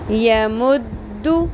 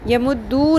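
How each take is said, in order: First: The final vowel is kept short. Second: The final vowel is drawn out long. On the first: The speaker calls it right. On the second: The speaker calls it wrong.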